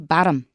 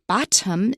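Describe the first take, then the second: First: The middle consonant is a quick D-like tap. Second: The middle consonant is a clear, full T. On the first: The speaker calls it right. "We say bottom, ... 有个的一个很短的一个刷" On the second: The speaker calls it wrong. "we don't say bottom in American. Usually it's not wrong, but ... it stands out"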